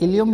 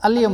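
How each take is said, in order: First: The word begins with an 'i' vowel. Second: The word begins with an 'a' vowel. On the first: "आज को भी दो तरह से बुलाते हैं" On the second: "अलियम भी बुलाते हैं"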